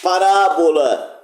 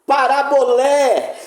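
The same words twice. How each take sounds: First: PaRÁbola, slow, with a long RÁ; parábola with the accent early, on RÁ; stress on RÁ. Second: ParaboLÉ, slow and high, landing hard on LÉ; parabolé with the accent at the very end; stress on final LÉ. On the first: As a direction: lean on the second syllable of parábola and let it fall. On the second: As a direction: draw out the last syllable of parabolé. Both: Shown as a demonstration. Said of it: "Onde o acento estiver".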